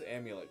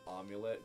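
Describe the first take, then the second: First: The vowel after the m is a plain 'uh'. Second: The vowel after the m is a 'yoo' sound. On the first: The speaker calls it right. "so it is Amulet Coin" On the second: The speaker calls it wrong. "I pronounced it Amulet"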